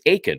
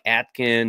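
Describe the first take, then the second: First: The T sound is left out of the name. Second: The T sound is pronounced in the name. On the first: The speaker calls it right. "it's Aiken, right? Is the T kind of silent?" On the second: The speaker calls it wrong. "I'm like Atkin"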